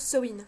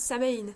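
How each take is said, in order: First: The name is pronounced the Irish way. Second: The name is pronounced a non-Irish way. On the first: This is how the speaker learned it. "je le prononce à l'irlandaise" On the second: This is how many other people say it. "beaucoup prononcent Samhain"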